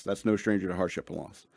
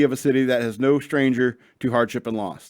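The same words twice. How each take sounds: First: "That's no stranger" muttered softer, correcting the text; quietly fix the misread wording; quiet correction. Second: Said in the usual way. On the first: Real, not acted.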